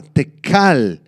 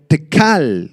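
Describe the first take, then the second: First: "tekal" with a hard K and stress on the final A, te-KAL; Aramaic pronunciation. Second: Said in the usual way. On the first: Shown as a demonstration. Teacher showing the Aramaic word "tekal", stressed te-KAL. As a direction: say "tekal" slowly, leaning on the last A. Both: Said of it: "con K y acento en la A".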